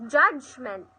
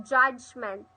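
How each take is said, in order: No difference in how they are said.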